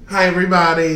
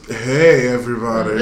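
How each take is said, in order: First: It is said in his normal voice. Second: It is said in a put-on deep voice.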